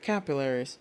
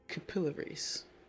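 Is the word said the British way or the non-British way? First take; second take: non-British; British. First: It is said in a non-British accent. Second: It is said in a British accent. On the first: "Not capillaries" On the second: "Love me some British English"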